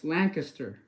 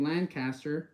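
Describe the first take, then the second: First: Lancaster as LANK-uh-ster, second syllable reduced; local pronunciation. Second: Lancaster with a full "caster", as LAND-CAST-er; mistaken pronunciation. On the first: Streamer teaching the locals' way, Lancaster as "LANK-uh-ster". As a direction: squeeze Lancaster into "LANK-ister". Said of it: "the way they pronounce it is". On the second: Streamer showing viewers the mistaken way, Lancaster as "land caster". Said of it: "instead of saying Lancaster". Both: Shown as a demonstration.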